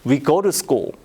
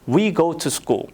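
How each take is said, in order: First: The word 'to' has a soft flapped sound. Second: The word 'to' has a clear t sound. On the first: This is how American or Canadian speakers say it. "미국, 캐나다 ... to를 루로 발음을 해야 돼요" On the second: This is how British or Australian speakers say it. "영국, 호주"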